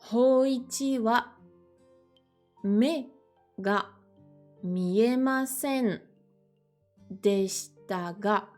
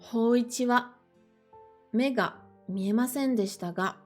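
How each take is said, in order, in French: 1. Elle est lue à un rythme plus lent. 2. Elle est lue à un rythme normal, plutôt rapide.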